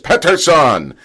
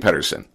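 First: The name is said with a Swedish pronunciation. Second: The name is said with an English pronunciation. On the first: "Kind of like he's back in his home, right, country" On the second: "I don't say Pettersson"

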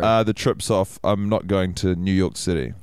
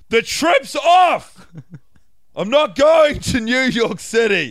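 First: It is said at a normal speaking volume. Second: It is yelled much more loudly.

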